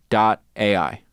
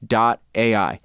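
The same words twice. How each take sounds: The two takes are said the same way.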